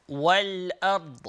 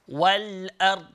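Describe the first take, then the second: The two takes are said the same way.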